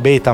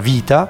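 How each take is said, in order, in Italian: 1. La parola inizia con un suono B. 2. La parola inizia con un suono V. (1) "noi lo diciamo beta" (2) "ma in realtà si pronuncia vita"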